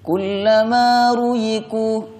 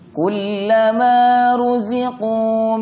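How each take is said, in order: First: The middle consonant sounds like a y. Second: The middle consonant sounds like a z. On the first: The speaker calls it wrong. "za dibaca seperti ya" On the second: The speaker calls it right. "Yang benar z"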